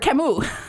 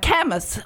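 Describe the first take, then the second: First: The name is said with French-style sounds. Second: The name is said with English-style sounds. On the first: The speaker calls it right. "for Camus" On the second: The speaker calls it wrong. "you don't say Camus"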